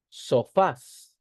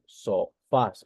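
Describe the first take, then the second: First: Sofás punched on FÁS, higher pitched; stress on final syllable. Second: Sofás slowly split, SO... FÁS; syllable by syllable. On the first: Teacher presenting an example word to the class, stressing FÁS in Sofás. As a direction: say "Sofás" emphatically, landing on FÁS. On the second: Teacher checking the stress with students, slowly splitting sofás into SO... FÁS. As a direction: break "sofás" into two slow syllables. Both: Shown as a demonstration. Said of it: "La mayor fuerza de voz se encuentra en fas".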